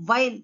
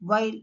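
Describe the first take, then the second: First: "while" begun with V, as vile; "while" with a clear, louder V onset; V sound. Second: "while" begun with a rounded W; "while" with no teeth on the lip; W sound. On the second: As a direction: lips forward to start "while". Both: Shown as a demonstration. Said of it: "sound also differs".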